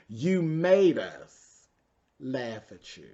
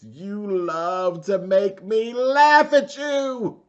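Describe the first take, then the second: First: Said in the usual way. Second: High, loud, very slow theatrical mother; mommy dearest voice. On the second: Retold or imitated. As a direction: drag out every word like a menacing diva mom. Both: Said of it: "in my mommy dearest voice".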